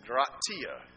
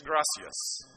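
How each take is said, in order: First: Gratia with a t in place of the s; slow "gratia", GRAH-tee-ah; Spain-style gracias. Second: Gracias with an s sound for the c; Mexican gracias. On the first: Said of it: "Spanish Spanish". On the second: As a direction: say "gracias" as GRAH-see-ahs. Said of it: "Mexican Spanish is gracias". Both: Shown as a demonstration.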